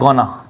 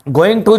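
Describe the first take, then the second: First: The two words are merged into one short word. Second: The two words are said fully and separately. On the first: This is the informal spoken form. "बोलने में और पढ़ने में गोना कर देते हैं" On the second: This is the form used in writing. "लिखने में गोइंग टू ही होता है"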